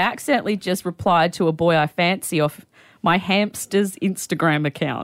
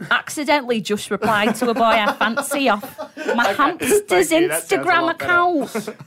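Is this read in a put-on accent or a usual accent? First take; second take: usual; put-on. First: It is read in the speaker's usual accent. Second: It is read in a put-on accent.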